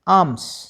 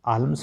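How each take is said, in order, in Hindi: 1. L की ध्वनि छोड़ दी जाती है। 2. L की ध्वनि बोली जाती है।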